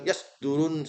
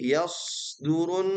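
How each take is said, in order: First: The s sound is cut short. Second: The s sound flows and is drawn out. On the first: The speaker calls it wrong. "Bukan yas durun salah" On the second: The speaker calls it right. "Sodnya dialirkan"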